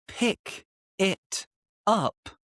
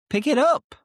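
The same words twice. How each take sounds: First: Said in the usual way. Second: "pick it up" linked into one word, higher and louder; linked, pickitup. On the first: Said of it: "Instead of". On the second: Shown as a demonstration. Teacher showing "pick it up" as one linked word. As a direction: glide "pick it up" together as one.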